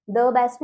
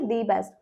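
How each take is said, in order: First: Short schwa in "the best"; "the" as duh. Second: Long ee in "the best"; "the" as dee. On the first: Teacher showing what not to say, "the" as "duh". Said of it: "the best नहीं बोलेंगे". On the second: Teacher correcting to the preferred form, "the" as "dee". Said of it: "नहीं बोलेंगे". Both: Shown as a demonstration.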